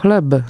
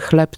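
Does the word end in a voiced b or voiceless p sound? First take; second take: voiced b; voiceless p. First: The final consonant is a fully voiced b. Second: The final consonant sounds like a voiceless p. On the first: The speaker calls it wrong. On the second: The speaker calls it right.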